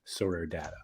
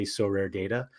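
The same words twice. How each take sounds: First: "Data" with an open A in the first syllable; data with short A. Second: "Data" with a long A, DAY-ta. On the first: Correcting himself before saying it, "Data" with short A. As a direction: say "Data" to rhyme with "matter". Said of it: "before I say it, I'm like". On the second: Admitting natural habit to co-host, "Data" as DAY-ta. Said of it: "I wanna just say Sorare Data". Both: Shown as a demonstration.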